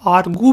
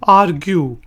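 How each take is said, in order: First: No y sound follows the g. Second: A y sound follows the g. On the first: The speaker calls it wrong. "कुछ लोग इसको आर्गू भी कहते हैं, जो कि गलत है" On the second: The speaker calls it right. "Word है जी आर्ग्यू"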